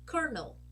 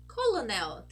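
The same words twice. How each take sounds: First: The word has no light L sound. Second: The word has a clear light L sound. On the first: The speaker calls it right. "this is not a light L" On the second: The speaker calls it wrong. "Isn't that a light L?"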